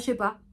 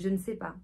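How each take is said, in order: First: The word 'ne' is dropped from the phrase. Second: The word 'ne' is fully pronounced in the phrase. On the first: The speaker calls it wrong. "si j'ai l'habitude de dire « je sais pas »" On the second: The speaker calls it right. "« je ne sais pas », c'est déjà mieux que « je sais pas »"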